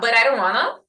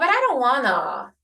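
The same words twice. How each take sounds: First: It is said flatly, with little pitch movement. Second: It is said expressively, with lively pitch movement. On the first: It conveys only the literal content of the words. The speaker calls it wrong. "ela está sem, sem vida" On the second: It conveys a particular intention or feeling. The speaker calls it right. "Eu modulei, né, a, a, a entonação"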